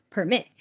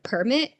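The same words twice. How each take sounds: First: "permit" stressed on the second syllable, per-MIT; verb stress. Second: "permit" stressed on the first syllable, PER-mit; noun stress. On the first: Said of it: "talking about the verb". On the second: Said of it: "instead of permit". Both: Shown as a demonstration.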